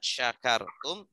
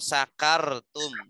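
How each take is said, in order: First: The word begins with a breathy 'sh' sound. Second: The word begins with a plain 's' sound. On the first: It means if you are grateful. The speaker calls it right. "Harusnya syakartum, sya, shin ya, harus ada udara yang keluar yang banyak" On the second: It means if you become drunk. The speaker calls it wrong. "Terkadang terucapnya la ing sakartum ya"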